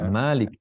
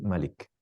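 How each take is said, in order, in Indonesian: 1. Vokal pertama diucapkan panjang. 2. Vokal pertama diucapkan pendek.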